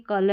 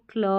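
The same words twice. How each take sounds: First: 'कल' with a full vowel after k; unblended mispronunciation. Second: 'क्ल' with a half k straight into l; blended pronunciation. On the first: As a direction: keep k and l apart in 'कल'. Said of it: "एकदम देखते ही कल नहीं पढ़ना". ('कल' में पूरा क बोलें) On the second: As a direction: run k into l, 'क्ल'. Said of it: "C L को क्ल पढ़ते हैं". ('क्ल' में आधा क, पूरा ल बोलें) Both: Shown as a demonstration.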